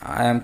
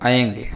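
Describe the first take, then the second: First: The syllable ends in an m sound. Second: The syllable ends in an ng sound. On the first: The speaker calls it wrong. "आयम में आयम कहते हैं" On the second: The speaker calls it right. "पहले में गकार रहेगा"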